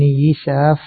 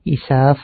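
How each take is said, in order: First: يساف with an i after the opening y; kasra on ya. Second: إساف opening on a glottal "i", no y; initial hamza. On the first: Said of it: "بكسر الياء". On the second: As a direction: begin إساف with hamza instead of ya. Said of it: "وقالوا أيضًا بالهمزة". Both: Shown as a demonstration.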